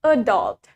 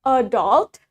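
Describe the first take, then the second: First: "adult" stressed on the second syllable, a-DULT; American "adult", weight on DULT, falling; low "adult" with the stress at the end. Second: "adult" stressed on the first syllable, AD-ult; British "adult", weight on the opening A. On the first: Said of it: "In American". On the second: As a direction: model "adult" with front stress. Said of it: "In British". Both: Shown as a demonstration.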